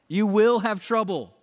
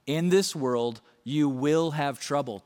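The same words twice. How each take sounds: First: "will" hit louder and higher, the rest falling away; stress on WILL. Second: Said in the usual way. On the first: Shown as a demonstration. Pastor insisting to the congregation, stress on "will". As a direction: lean hard on "will" to make it certain. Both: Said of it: "Don't be surprised by it".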